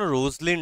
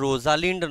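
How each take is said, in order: First: The name is said with two syllables. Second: The name is said with three syllables. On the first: The speaker calls it right. "Actually উচ্চারণটা যেন রোজলিন্ড হবে" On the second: The speaker calls it wrong. "উচ্চারণটা রোজালিন্ড নয়"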